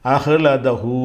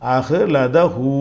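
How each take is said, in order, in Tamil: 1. சொல் நீட்டிய 'hu' ஒலியுடன் முடிகிறது. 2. சொல் நீட்டிய 'hu' ஒலியுடன் முடிகிறது.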